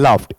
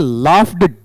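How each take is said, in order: First: The word ends with a t sound. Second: The word ends with a d sound. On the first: The speaker calls it right. "फै के साथ में आपका टै है। तो क्या बन गया" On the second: The speaker calls it wrong. "इसे लाफ्ड डै नहीं पढ़ेंगे"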